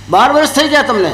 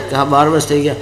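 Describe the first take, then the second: First: Higher astonished question; wondering guru. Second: Meek disciple. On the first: Guru asking the disciple again, amazed and higher. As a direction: ask it in amazement. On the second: Disciple confirming to his guru, low and meek. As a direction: say it humbly with voice dropped. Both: Acted.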